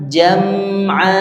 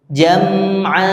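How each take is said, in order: The two takes are said the same way.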